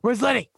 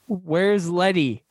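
First: It is said in a Vince impression. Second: It is said in his normal voice.

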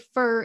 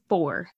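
First: The vowel sounds like the one in 'fur'. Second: The vowel sounds like the one in 'door'. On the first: The speaker calls it wrong. "I say fur instead of four" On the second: The speaker calls it right. "instead of four"

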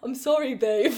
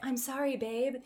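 First: It is said in a put-on accent. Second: It is said in the speaker's own voice.

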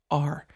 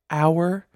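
First: The word is said quickly, like the letter R. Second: The word is said fully, like 'hour'. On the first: "when you say it fast, sometimes it comes out as R" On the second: "that is pronounced our"

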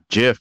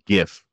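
First: It begins with a soft G sound. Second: It begins with a hard G sound. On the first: The speaker calls it wrong. "Not GIF" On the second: The speaker calls it right. "So graphic, like GIF"

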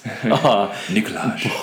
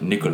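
First: The final j is sounded as a consonant. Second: The final j is silent. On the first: This is how the name is said on a TV show. The speaker calls it wrong. "Have you guys seen Brooklyn Nine-Nine?" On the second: This is how the actor's name is really said. The speaker calls it right. "the bloody J there, though. Silent"

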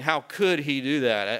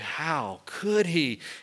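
First: It sounds judging and accusing. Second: It sounds marveling and amazed.

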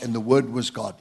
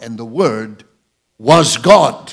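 First: The word God has no special stress. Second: The word God is strongly stressed. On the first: "let me quote the entire verse again" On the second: "The Greek emphasis is like this"

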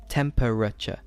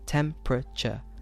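First: The word is said with four syllables. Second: The word is said with three syllables. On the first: "With four syllables" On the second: "I'm saying three"

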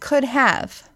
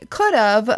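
First: The second word is said as a full 'have'. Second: The second word is reduced to a weak 'of'. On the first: This is the intended phrase. The speaker calls it right. "when they mean could have" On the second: This is how people actually say it. The speaker calls it wrong. "Why do Americans say could have"

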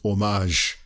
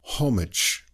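First: It is said French-style, without the H. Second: It is said British-style, with the H pronounced.

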